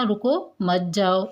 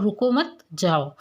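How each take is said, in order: First: Slow रुको, a clear pause, then मत जाओ together; pause after रुको. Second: रुको मत run together, then a break before जाओ; pause after मत. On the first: Teacher recapping how meaning changes, pause after रुको. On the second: Teacher recapping the changed meaning, pause after मत. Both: Shown as a demonstration. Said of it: "दोनों में अर्थ में परिवर्तन".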